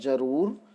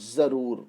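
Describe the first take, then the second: First: The word begins with a 'j' sound. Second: The word begins with a 'z' sound. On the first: "बिना नुक्ता लगाए शब्द का उच्चारण करें तो बनेगा जरूर" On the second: "जब हम नुक्ता लगा देते हैं तो हो जाएगा जरूर"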